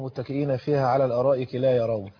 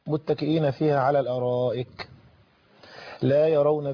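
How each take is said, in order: First: The recitation stops right after "la yaroon". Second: The recitation continues past "la yaroon" without stopping. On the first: The people of Paradise cannot see at all. The speaker calls it wrong. "بس وروح واقف كده" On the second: They see neither sun nor bitter cold. The speaker calls it right. "الاولى ايه؟"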